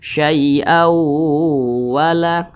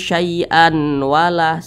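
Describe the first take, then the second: First: The n merges into a long nasal w. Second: A clear n sound is heard before the w. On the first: The speaker calls it right. "Tapi dibaca syai'aw wala, didengungkan" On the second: The speaker calls it wrong. "Jangan dibaca syai'an wala, salah"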